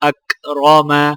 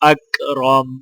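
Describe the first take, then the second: First: The word ends with a short a vowel. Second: The word ends on a bare m consonant. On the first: "मीम जबर मा" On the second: "आगे वक्फ"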